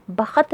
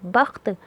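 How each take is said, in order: First: बख्त said "ba-khat", in two syllables; full kh with its vowel in बख्त; wrong full-vowel reading. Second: बख्त as one syllable, "bakht"; no vowel after kh in बख्त; half-sounded kh. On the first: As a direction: put a short vowel between kh and t in बख्त. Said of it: "बख्त नहीं पढ़ेंगे". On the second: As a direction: run kh straight into t in बख्त. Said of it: "खे के ऊपर जज़म है". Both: Shown as a demonstration.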